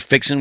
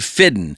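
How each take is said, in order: First: The middle consonant is a ks sound. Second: The middle consonant is a d sound. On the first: This is how others say it. "We don't say fixin'" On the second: This is how people in South Georgia say it. "we say fiddin'"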